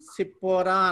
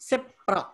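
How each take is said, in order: First: The name has three syllables, ending in pora. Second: The name has two syllables, ending in pra. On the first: "సిప్పోరా అనకుండా" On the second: "spelling అలాగ వస్తుంది"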